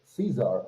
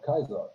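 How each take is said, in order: First: The name begins with an s sound. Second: The name begins with a k sound. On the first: This is how the dubbed characters say it. The speaker calls it wrong. "also just say Caesar" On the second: This is how the name is meant to be said. The speaker calls it right. "instead of Kaiser"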